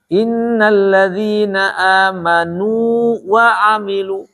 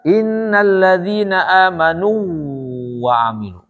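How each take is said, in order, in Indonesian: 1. Vokal sebelum "wa" dibaca panjang. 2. Vokal sebelum "wa" menyatu dengan w. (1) "Untuk menghindari idgham, maka ini harus dimadkan" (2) "Khawatir dibaca"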